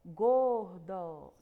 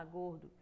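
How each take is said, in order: First: GORDO very loud and stretched into two beats; syllable by syllable. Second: Said in the usual way. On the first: Shown as a demonstration. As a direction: draw out each syllable of Gordo loudly. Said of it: "Tá vendo quantas pausazinhas tem?". (Gordo bem alto e arrastado, separando as sílabas) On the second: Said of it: "quantas pausazinhas tem".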